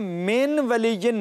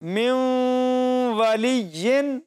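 First: The n is pronounced clearly before the w. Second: The n merges into the w with nasal sound. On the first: The speaker calls it wrong. "من ولیین نہیں پڑھا گیا" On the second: The speaker calls it right. "اس پہلی مثال کو ہم یوں پڑھیں گے"

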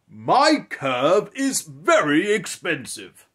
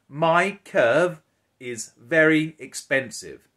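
First: It is said in a grand, kingly voice. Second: It is said in a plain, natural voice.

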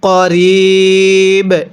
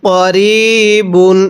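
First: The word ends on a bare 'b' sound. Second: The word ends with a nasal 'un' ending. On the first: The reader stops at this word. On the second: The reading continues without stopping.

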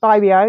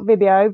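First: The first syllable sounds like the word 'vibe'. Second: The first syllable does not sound like 'vibe'. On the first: The speaker calls it right. "because it's all about the vibe" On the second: The speaker calls it wrong. "not Vibio"

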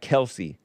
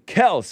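First: The name is said as two syllables, Kel-see. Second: The name is said as one syllable, Kels. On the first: The speaker calls it wrong. "not Kelce" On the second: The speaker calls it right. "So I call him Kelce"

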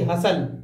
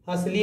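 First: The word ends in a plain 'l' sound. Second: The word ends with an added 'ee' vowel. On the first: The speaker calls it right. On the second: The speaker calls it wrong. "हसली नहीं"

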